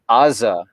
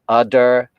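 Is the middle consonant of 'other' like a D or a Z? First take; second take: Z; D. First: The middle consonant is a Z-like buzz. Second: The middle consonant is a D-like stop. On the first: "you'll hear a completely different phoneme" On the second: "so that it is more al- alveolar ridge"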